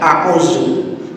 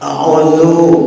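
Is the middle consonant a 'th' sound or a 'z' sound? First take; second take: z; th. First: The middle consonant is a buzzing 'z' sound. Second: The middle consonant is a soft 'th' sound. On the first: I deviate from God. The speaker calls it wrong. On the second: I seek refuge in God. The speaker calls it right. "yang awal pakai zal benar"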